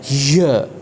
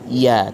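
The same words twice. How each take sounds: First: It is said with audible breath. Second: It is said cleanly with no breath. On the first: The speaker calls it wrong. "ini keliru, ya, ketika kita mengucapkan huruf ya disertai dengan nafas" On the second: The speaker calls it right. "Huruf ya tidak menggunakan nafas"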